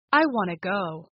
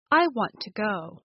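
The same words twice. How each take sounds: First: "want to" run together as "wanna"; reduced "want to". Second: Said in the usual way. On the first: Shown as a demonstration. Teacher giving an example of reduced speech, "want to" as wanna. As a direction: say "want to" as "wanna", dropping the second t sound. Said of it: "so wanta becomes wanna". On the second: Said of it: "why do native speakers change or omit".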